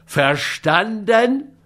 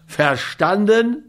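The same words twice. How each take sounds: First: VERSTANDEN drawn right out, rising high; mock thundering demand. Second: VERSTANDEN slow with a high rise at the end; demanding question. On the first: Scott repeats his question to grumbling Schmidt, understated thunder. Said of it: "donnerte der andere ihn an". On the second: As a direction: press for an answer on "Verstanden", rising. Scott demands an answer, first time. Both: A narrator's reading.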